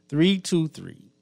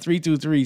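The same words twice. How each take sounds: First: The numbers are read at a slower pace. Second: The numbers are read at a quicker pace.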